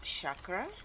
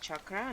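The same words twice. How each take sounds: First: It is pronounced the anglicized Western way. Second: It is pronounced the Sanskrit way. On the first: The speaker calls it wrong. "not chakra" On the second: The speaker calls it right. "the correct way to say the word chakra is chakra"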